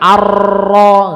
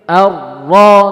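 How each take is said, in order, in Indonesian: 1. Bunyi r ganda digetarkan panjang dan kuat. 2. Bunyi r ganda digetarkan ringan dan sebentar. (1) "bukan arro, enggak, ini salah, ini berlebihan namanya takrirnya" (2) "Tapi arro"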